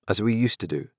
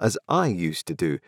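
First: We leaned on, falling after; stress on we. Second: I leaned on, slowed and falling; stress on I. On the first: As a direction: lean on "we", then let it fall. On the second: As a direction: lean on "I" and let the line fall. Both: A narrator's reading. Parallel clause contrasting we and I.

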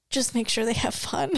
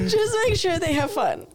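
First: Dramatic request. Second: Much higher, laughing overdramatic plea; mock her own tragic sigh of a request; mock dramatic plea. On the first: Retold or imitated. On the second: Retelling her plea to husband, hammed-up tragic and high. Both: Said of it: "It was so dramatic".

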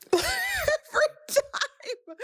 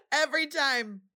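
First: High, slow, laughing through tears; tearful break on the words; crying laugh. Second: Quieter tearful repeat. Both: Real, not acted. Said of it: "I'm choking up every time".

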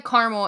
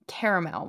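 First: "caramel" as CAR-mul, two syllables. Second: "caramel" as CARE-uh-mel, three syllables. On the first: Host giving her lifelong habit, "caramel" as CAR-mul. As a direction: drop the middle vowel of "caramel", CAR-mul. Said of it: "I've always said caramel". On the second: Host giving her recent habit, "caramel" as CARE-uh-mel. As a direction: keep the middle vowel in "caramel", CARE-uh-mel. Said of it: "recently I've been saying caramel more". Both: Shown as a demonstration.

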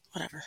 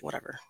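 First: Softer sighed "Whatever"; sighing whatever. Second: Soft, shrugging "Whatever"; dismissive whatever. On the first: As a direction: let it go with a sigh. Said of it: "Like, sighs". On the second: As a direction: brush it off quietly. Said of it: "I'm just like". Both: Retold or imitated.

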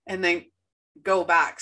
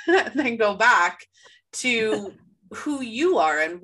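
First: Hiccuping mid-sentence; hiccups. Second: Laughing through the hiccups. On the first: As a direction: talk through a hiccup. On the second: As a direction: giggle your way back in. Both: Real, not acted. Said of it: "So I have the hiccups".

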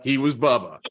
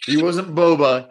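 First: "Bubba" said BUH-buh in place of "Boba"; "Bubba" with short uh vowels, like a Southern nickname; Bubba joke. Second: Said in the usual way. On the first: Shown as a demonstration. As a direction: turn "Boba" into a folksy "Bubba".

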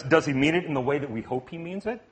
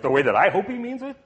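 First: Said in the usual way. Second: "I" lifted in a quick, rising question; stress on "I". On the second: Shown as a demonstration. Preacher making the question personal, stress on "I" with rising pitch. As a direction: lean on "I", pitch climbing to the end. Same question narrowed to himself.

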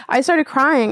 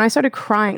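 First: "started crying" drawn out slowly and higher; slow, higher-pitched stress on "started crying"; emphatic repeat. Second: Said in the usual way. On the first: Real, not acted. Emphatic repeat of her own words.

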